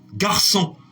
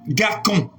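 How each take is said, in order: First: The c is said as a soft s sound. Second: The c is said as a hard k sound. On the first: The word is written with the cedilla. The speaker calls it right. "C'est grâce à la cédille que vous avez le son" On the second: The word is written without the cedilla. The speaker calls it wrong. "sans la cédille sous le C, on aura"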